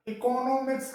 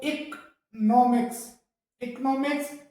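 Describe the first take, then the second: First: इकोनॉमिक्स said as "i-ko-no-miks"; इकोनॉमिक्स with every syllable full; common pronunciation. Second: इकोनॉमिक्स said "ik-NO-miks"; correct pronunciation. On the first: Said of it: "इस तरीके से बोला जाता है". (आम उच्चारण: इकोनॉमिक्स) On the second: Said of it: "सही जो प्रोनाउंसिएशन है". (सही उच्चारण: इकोनॉमिक्स) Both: Shown as a demonstration.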